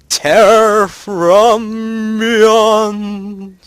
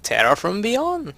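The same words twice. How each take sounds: First: It is said in a spooky voice. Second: It is said in a normal voice.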